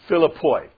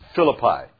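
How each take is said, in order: First: The name has a Greek pronunciation. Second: The name has an English pronunciation. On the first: The speaker calls it right. "It's pronounced in the Greek" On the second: The speaker calls it wrong. "this is not pronounced Philippi"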